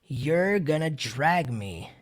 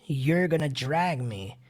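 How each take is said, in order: The two takes are said the same way.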